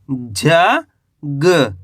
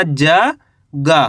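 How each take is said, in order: First: ज, a pause, then ग as a short "guh"; half-sounded final ग. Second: Slow ज गा, the गा drawn out as "gaa"; wrong full-vowel गा. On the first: Teacher repeating for learners how to read, half-sounded ग. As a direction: cut ग to a half sound, not full गा. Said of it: "ऐसे पढ़ेंगे". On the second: Teacher showing learners how not to read, full-vowel गा. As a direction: sound गा in full with a long "aa". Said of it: "ऐसे नहीं पढ़ना।". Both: Shown as a demonstration.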